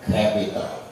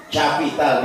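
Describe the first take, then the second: First: Capital said the English way, softer; proper English pronunciation. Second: Capital read as spelt, cha-pi-tal; spelling-style reading. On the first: Preacher gives the proper English reading, softer. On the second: Preacher mocks reading English as spelt. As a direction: sound capital out letter by letter. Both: Shown as a demonstration.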